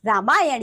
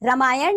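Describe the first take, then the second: First: रामायण with a long first vowel; correct रामायण. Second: रामायण with a short first vowel; mispronounced रामायण. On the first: Teacher giving children the right form, correctly pronounced. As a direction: say रामायण carefully as "raamaayan". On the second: Teacher showing children a wrong form, mispronounced. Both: Shown as a demonstration. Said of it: "नहीं".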